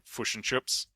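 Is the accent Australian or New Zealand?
New Zealand. The i vowel is muted, almost like u.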